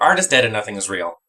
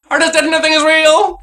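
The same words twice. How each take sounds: First: Said in the usual way. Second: High, loud despairing proclamation; shouted high and loud on the repeat; dramatic yell. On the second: Acted. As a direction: cry it out like a tortured artist.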